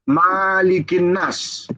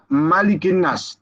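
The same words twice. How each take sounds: First: The vowel after the m is drawn out long. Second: The vowel after the m is kept short. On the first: "Mimnya ada yang memanjangkannya pakai alif" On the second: "tidak pakai alif"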